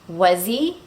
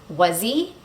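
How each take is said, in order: Both takes have the same delivery.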